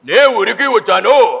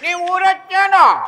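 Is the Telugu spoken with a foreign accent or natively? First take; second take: foreign accent; native. First: It is spoken in deep, broken, foreign-accented Telugu. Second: It is spoken in fluent, native-sounding Telugu. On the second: "ఆయన body language తగ్గట్టు చెప్తున్నాడు"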